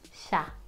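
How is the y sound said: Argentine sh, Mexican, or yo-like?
Argentine sh. The y is said like sh. "The other one is like saying shh"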